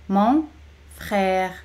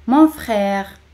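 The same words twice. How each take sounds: First: "Mon", clear pause, "frère"; teacher's spaced-out "Mon ... frère"; word by word. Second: Said in the usual way. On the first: Shown as a demonstration. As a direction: separate "Mon" from "frère" for learners. Teacher separates the words for repetition.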